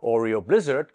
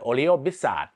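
First: It is said with an English accent. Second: It is said with a Thai accent. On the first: It is how to say it when talking with Westerners. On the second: It is how to say it when talking with Thai people.

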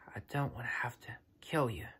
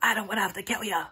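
First: It is said gently, with warmth. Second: It is said harshly, with anger. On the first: The words come from love. The speaker calls it right. "There's love in his heart" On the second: The words come from bitterness. The speaker calls it wrong. "He wasn't like"

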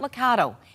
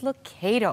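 First: The middle syllable does not sound like 'may'. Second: The middle syllable sounds like 'may' in tomato. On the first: The speaker calls it wrong. "It's not Lucado" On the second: The speaker calls it right. "It is Lucado. ... like ... tomato"

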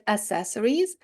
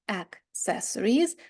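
First: It starts with a plain s sound, no k. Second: It starts with a k sound before the s. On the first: The speaker calls it wrong. "американці самі роблять помилку цьому слові. Вони читають accessories" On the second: The speaker calls it right. "а потрібно accessories через те, що тільки друга літера змінюється"

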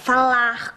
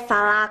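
First: The word ends with an audible R sound. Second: The word ends on the vowel, without R. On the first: The speaker calls it right. "Com R no final" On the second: The speaker calls it wrong. "E não"

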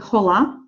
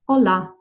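First: The word begins with an audible H sound. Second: The word begins directly with the vowel, no H. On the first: The speaker calls it wrong. "We do not say hola" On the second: The speaker calls it right. "we say hola"

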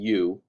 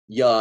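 First: The vowel is fully and clearly pronounced. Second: The vowel is reduced to a short weak sound. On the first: "instead of" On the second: "us doing lazy speak"

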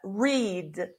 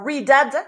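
First: The word ends cleanly on the 'd' sound. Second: The word ends with an extra 'ed' syllable. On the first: The speaker calls it right. "Just read" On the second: The speaker calls it wrong. "or read-ed"

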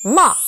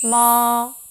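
First: The pitch drops sharply from a struck start. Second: The pitch stays high, level and long. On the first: "짧게 첫음을 탁 쳐주는 느낌" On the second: "일성은 높은 음을 길게 빼줍니다"

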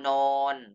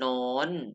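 First: The syllable has a level mid tone. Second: The syllable has a high tone. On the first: "นอโอนอนอน" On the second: "ไม้โท"

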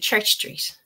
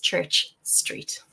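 First: The words are said quickly and run together. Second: Both words are said clearly and separately.

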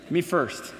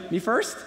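First: It is said in a forceful, intimidating tone. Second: It is said like a question, rising. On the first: The speaker demands to go ahead of others. "That's kind of the intimidating way" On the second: The speaker asks whether to go ahead. "Or you could say it like a question"

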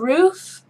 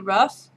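First: The vowel is a long 'oo' sound. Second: The vowel is short, like in 'rough'. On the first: "For roof, like the roof of a house" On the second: "I say rough"

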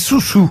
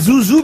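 First: The name is said with s sounds. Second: The name is said with z sounds. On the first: The speaker calls it right. "mais Soussou" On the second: The speaker calls it wrong. "on ne dit pas Zouzou"

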